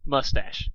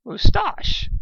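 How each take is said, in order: First: "Mustache" as MUSS-tash, firm; determined correction. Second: "Moustache" as moo-STAHSH, high and loud; snapped moustache. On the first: Pinkie correcting the sea serpent: "Mustache" as muss-tash. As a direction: say "Mustache" plainly and firmly. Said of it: "Pinkie corrected with determination". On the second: The sea serpent snapping "Moustache" as moo-stahsh at Pinkie. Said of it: "snapped Stephen Magnet". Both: Acted.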